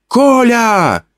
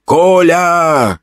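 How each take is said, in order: First: High calling woman's voice; a woman's high call of "Коля!". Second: Higher calling woman's voice; a lightly voiced woman's call of "Коля!". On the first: Acted. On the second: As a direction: call him like a familiar woman. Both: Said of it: "окрикнул меня знакомый женский голос".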